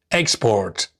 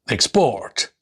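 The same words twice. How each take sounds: First: Export as EX-port, first syllable stressed. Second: Export as ex-PORT, second syllable stressed. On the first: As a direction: hit the EX in export. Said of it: "nouns and adjectives normally have the stress on their first". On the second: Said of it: "the stress is shifted onto the second syllables". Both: Shown as a demonstration.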